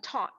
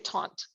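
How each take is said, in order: First: It is said without an n sound. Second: It is said with an n sound. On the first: "T A U T" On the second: "I always say taunt. ... they always tell me that's not how you say it"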